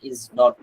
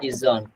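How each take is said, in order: First: It is said as two separate full words. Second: It is said as one contracted word. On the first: "ইজ নট কে সংক্ষেপে কি পড়া হয়?" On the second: "সংক্ষেপে"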